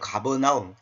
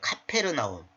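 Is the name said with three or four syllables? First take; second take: four; five. First: The name has four syllables starting with a soft g. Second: The name has five syllables starting with a hard k. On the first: This is the form found in the Korean Bible. The speaker calls it wrong. "성경에 보면 이제 가버나움 있죠" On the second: This is the original form of the name. The speaker calls it right. "원래는 가버나움이 아니라 카페르나움이에요"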